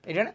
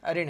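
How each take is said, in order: First: The first syllable has a short 'i' vowel. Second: The first syllable has a short 'a' vowel. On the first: This is the everyday colloquial form. The speaker calls it wrong. "हिरण गलत है।" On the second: This is the pure, standard form. The speaker calls it right. "लेकिन शुद्ध क्या है? हरिण है।"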